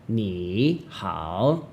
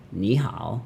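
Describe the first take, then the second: First: "Ni hao" slow, each syllable dipping and rising; two full teacher tones. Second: "Ni hao" joined, "Ni" simply rising before "hao" dips; question then teacher tone. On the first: Teacher showing the harder way, "Ni hao" with both dips. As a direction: scoop both "Ni" and "hao" separately. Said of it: "you don't have to go". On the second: Teacher showing the easier way, "Ni hao" with "Ni" rising. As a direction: shorten "Ni" to a rise, then dip "hao". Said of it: "You just go". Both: Shown as a demonstration.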